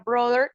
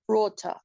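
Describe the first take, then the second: First: It is said with an American accent. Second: It is said with a British accent. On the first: "En la pronunciación en inglés americano se pronuncia brother, como si la T H fuera una D" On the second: "en la pronunciación británica podría ser brother... Y la R casi no se pronuncia"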